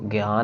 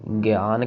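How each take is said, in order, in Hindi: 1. पहला अक्षर 'y' की आवाज़ के साथ खिसकता है। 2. अक्षर 'gi' और 'aan' में बंटे हैं। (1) "ये या नहीं कहना हमने" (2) "ज्ञान कहना है एड़े के साथ"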